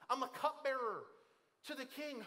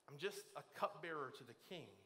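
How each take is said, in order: First: The voice sounds confident and excited. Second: The voice sounds dejected and self-dismissive. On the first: The speaker sees the position as a great opportunity. "uniquely positioned by God to step into this moment" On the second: The speaker feels insignificant and powerless. "infer a tone on it like this: I'm a nobody"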